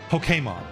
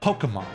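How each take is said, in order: First: The stress is not on the first syllable. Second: The stress is on the first syllable. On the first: This is the pronunciation the creators intended. "we're gonna go against the grain" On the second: This is the usual English pattern. "That stresses on the po"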